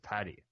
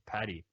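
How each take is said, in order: First: The middle consonant is a T sound. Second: The middle consonant is a D sound. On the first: "instead of Patty" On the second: "like D instead of T"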